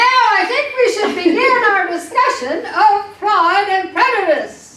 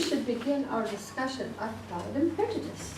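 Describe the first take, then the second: First: It is said loudly. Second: It is said quietly.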